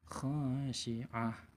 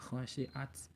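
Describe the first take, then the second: First: The word ends with an h sound. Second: The word ends with a t sound. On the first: The speaker calls it right. "kalau dia berhenti menjadi H" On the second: The speaker calls it wrong.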